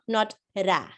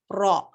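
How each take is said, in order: First: The ra is said light, with a thin sound. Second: The ra is said heavy, with a full mouth. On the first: The speaker calls it wrong. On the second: The speaker calls it right. "ra is heavy"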